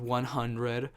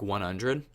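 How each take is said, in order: First: The h in hundred is clearly pronounced. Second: The h in hundred is softened and blended. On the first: The speaker calls it wrong. "that is not how Americans pronounce hundred" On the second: The speaker calls it right. "we don't put emphasis on the H because it, it just flows better"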